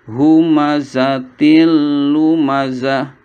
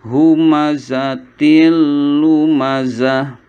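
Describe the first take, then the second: Both takes have the same delivery.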